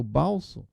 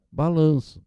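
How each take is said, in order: First: "balso" read as written, short and clipped; misspelt word read out. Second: Said in the usual way. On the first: Shown as a demonstration. Teacher reads the child's "balso" aloud to the class, letter by letter. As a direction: sound out "balso" exactly as the child wrote it. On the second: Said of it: "ela escreveu balso".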